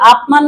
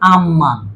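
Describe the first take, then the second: First: The first syllable ends in a p sound. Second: The first syllable ends in an m sound. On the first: The speaker calls it wrong. "আপমান না হয়" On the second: The speaker calls it right. "উচ্চারণটা হবে কি আমমান"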